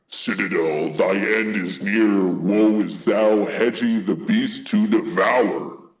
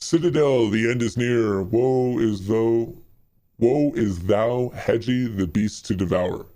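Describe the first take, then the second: First: It is said in a put-on scary voice. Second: It is read in a normal voice.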